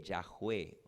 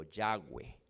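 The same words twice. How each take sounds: First: "Yahweh" como "yaj-UÉ", con jota aspirada; pronunciación con jota. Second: "Yahweh" como "YA-güe", con ge suave; pronunciación con ge. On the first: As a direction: di "Yahweh" marcando una jota en medio. ("Yahweh" grave, dicho "yaj-UÉ") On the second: ("Yahweh" grave, dicho "ya-güe") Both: Shown as a demonstration. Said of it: "Se pronuncia".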